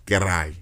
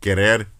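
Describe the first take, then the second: First: Querai, ending in an "eye" glide; Cibao R as I. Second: Said in the usual way. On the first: Shown as a demonstration. Showing the Cibao accent, querai with R as I. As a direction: say querai Cibao style, no final R. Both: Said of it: "they say they R's like I's".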